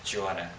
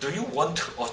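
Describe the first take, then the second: First: The words run together into one linked sound. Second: Each word is said separately without linking. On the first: The speaker calls it right. "연음이 여기서 발생되기 때문에" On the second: The speaker calls it wrong. "아니겠죠"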